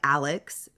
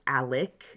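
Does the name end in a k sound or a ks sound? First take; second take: ks sound; k sound. First: The name ends with a ks sound. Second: The name ends with a k sound. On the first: The speaker calls it wrong. "It does look like Alex" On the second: The speaker calls it right. "it is pronounced Alec with a K at the end"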